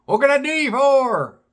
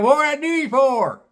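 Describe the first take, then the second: First: High hillbilly voice, repeated for a confused customer; country bumpkin repeating. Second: Country bumpkin greeting. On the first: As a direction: say it again in the bumpkin voice. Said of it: "He goes". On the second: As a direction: chirp it like a toothless country bumpkin. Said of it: "out walks this bumpkin". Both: Retold or imitated.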